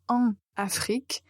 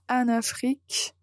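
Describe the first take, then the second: First: The nasal en is kept apart from Afrique. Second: The n sound runs straight into Afrique. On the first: The speaker calls it wrong. "c'est beaucoup plus difficile de dire en Afrique" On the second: The speaker calls it right. "c'est très facile euh, de dire en Afrique"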